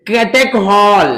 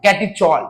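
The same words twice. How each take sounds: First: "catechol" with a hard kh, "kate-KHOL", drawn out very slowly; "catechol" ending in khol, not chol; hard K pronunciation. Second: "catechol" ending in chol, not khol; CH pronunciation. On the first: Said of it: "catechol पढ़ो या catechol पढ़ो". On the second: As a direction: say "catechol" as kati-chol, ch as in chair. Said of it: "इसे कई बार लोग catechol पढ़ते हैं". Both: Shown as a demonstration.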